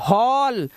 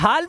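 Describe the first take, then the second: First: The vowel is a rounded 'aw' sound. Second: The vowel is an open 'ah' sound. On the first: The speaker calls it right. "नहीं" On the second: The speaker calls it wrong. "अच्छा गलत पढ़ूं, हाल पढ़ूं?"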